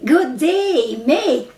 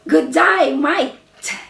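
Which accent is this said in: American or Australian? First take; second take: American; Australian. First: It is said in an American accent. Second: It is said in an Australian accent. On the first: "the Americans say" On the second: "I know how to say in um, Australia"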